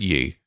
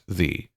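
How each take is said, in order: First: The word begins with a y sound. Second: The word begins with a th sound. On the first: The speaker calls it wrong. "No one ever said ye" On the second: The speaker calls it right. "it was pronounced the"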